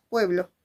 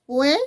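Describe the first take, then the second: First: Said in the usual way. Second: "pueblo" broken in two, rising "pue", long pause, then "blo"; split into syllables. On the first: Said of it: "¿Cuántas sílabas?". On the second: Shown as a demonstration. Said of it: "Tú dices pueblo".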